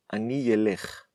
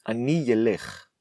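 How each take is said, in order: Both takes have the same delivery.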